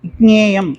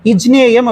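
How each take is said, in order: First: The word starts with i and a k sound. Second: The word starts with i and a j sound. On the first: The speaker calls it right. "இக்ஞேயம் ஞேயம் அப்படி சொல்லணும்" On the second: The speaker calls it wrong. "இஜ்ஞேயம் அப்படின்னு சொல்லிடக்கூடாது"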